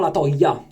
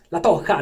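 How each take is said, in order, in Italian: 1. La j è un suono y morbido, quasi una semivocale. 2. La j è un suono h ruvido e gutturale. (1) "no la toia" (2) "perché in spagnolo la J si pronuncia H"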